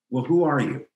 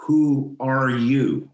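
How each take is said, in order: First: Said in the usual way. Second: "Who are you" drawn out slowly, each word weighted; slow insistent repeat. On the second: Retold or imitated. Rabbi pushing past his job title, slow and insistent. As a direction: press the question slowly so he has to really answer. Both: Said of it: "No, no, no".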